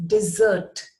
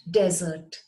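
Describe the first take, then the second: First: "dessert" as dih-ZERT, stress on the end; second-syllable stress. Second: "desert" as DEZ-ert, stress up front; first-syllable stress. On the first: Teacher shows the second word, "dessert" said as dih-ZERT. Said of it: "It is pronounced as". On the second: Teacher rules out the first word, "desert" as DEZ-ert. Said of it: "but it is not desert". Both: Shown as a demonstration.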